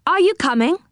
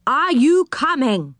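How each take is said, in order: First: Said in the usual way. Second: "Are you coming" slow, high, each word spelt out; "Are you coming" drawn out and falling at the end; emphatic repeat. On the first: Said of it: "I said, 'Are you coming?'". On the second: Acted. Repeats question for deaf listener.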